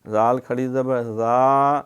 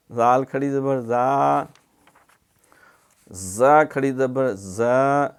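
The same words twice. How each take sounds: First: زا said gently with no whistle, slow; soft za. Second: زا gently and slowly, no whistle; soft za. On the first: Teacher shows soft زا without whistling. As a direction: soften زا, no hiss, no hardness. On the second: Teacher repeats soft زا for students. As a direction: keep زا soft and slow. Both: Shown as a demonstration. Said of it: "نرمی سے اس میں زا سیٹی نہیں مارنی".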